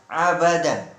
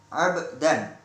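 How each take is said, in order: First: An extra a vowel follows the b. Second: The b is closed with no vowel after it. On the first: The speaker calls it wrong. "bukan abadan" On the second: The speaker calls it right. "baknya itu di sukun"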